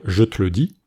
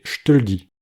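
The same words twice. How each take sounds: First: "je te le dis" said as "je t'le dis", only the E of "te" gone; second E dropped. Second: "je te le dis" said as "j'te l'dis", the E of "je" and "le" gone; first and third E dropped. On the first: Teacher showing the second spoken variant, je t'le dis. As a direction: keep "je" and "le" whole, swallow the E of "te". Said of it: "c'est le deuxième E qui tombe". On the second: Teacher showing the first spoken variant, j'te l'dis. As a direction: drop the E of "je" and of "le", keep the E of "te". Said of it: "le premier et le troisième E qui tombent".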